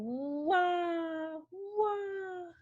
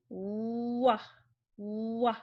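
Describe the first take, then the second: First: High, drawn-out mock wail; imitated baby crying. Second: Stretched rounded-lip start on "wah"; W sound. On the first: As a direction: wail "wah" like a baby, playfully. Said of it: "like a baby crying". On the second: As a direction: glide from "oo" into "wah", evenly. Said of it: "you move your lips, you round 'em". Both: Shown as a demonstration.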